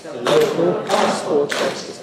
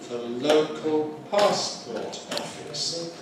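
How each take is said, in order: First: The phrase is said faster. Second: The phrase is said slowly. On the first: "and then a bit faster" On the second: "let's do that slowly"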